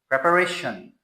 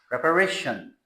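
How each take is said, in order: No difference in how they are said.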